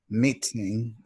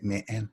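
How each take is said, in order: First: The middle T is clearly pronounced. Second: The middle T is dropped. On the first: "instead of saying" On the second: "sometimes I would drop the T"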